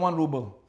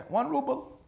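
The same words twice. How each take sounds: First: Said in the usual way. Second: Much higher, incredulous question; can't believe how cheap it is; surprised echo. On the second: Acted. Doctor hearing the price for the next life, surprised.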